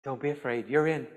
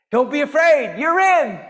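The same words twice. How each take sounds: First: Soft, low and comforting; gentle reassurance. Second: Loud, high, emphatic reassurance; jubilant proclamation. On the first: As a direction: reassure them quietly. Jesus' reassurance, first said gently. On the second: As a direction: proclaim it out to the whole crowd. Same reassurance repeated as proclamation. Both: Acted.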